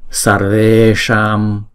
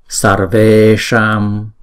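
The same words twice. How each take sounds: The two takes are said the same way.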